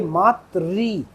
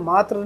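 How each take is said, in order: First: The word ends in a 'ri' sound. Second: The word ends in a plain 'r' sound. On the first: The speaker calls it right. "इसका जो उच्चारण है वो री है" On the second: The speaker calls it wrong. "हम इसे मात्र नहीं पढ़ सकते"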